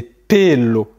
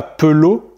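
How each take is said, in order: First: Pelo drawn out as pé-lo; slow pelo with a clear closed é; Spanish E as é. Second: Pelo said peu-lo, with a French schwa; French-style E. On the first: Teacher correcting a learner, pelo said pé-lo. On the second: Teacher showing the mistake to avoid, pelo as peu-lo. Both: Shown as a demonstration. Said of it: "c'est pas pelo".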